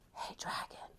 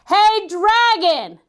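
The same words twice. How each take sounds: First: It is whispered very softly. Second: It is shouted very loudly.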